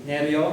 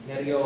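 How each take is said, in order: No difference in how they are said.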